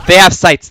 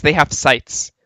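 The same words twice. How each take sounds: First: Louder, higher alarm call; urgent warning. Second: Said in the usual way. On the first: Real, not acted. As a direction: sound the alarm. Repeated warning, first loud.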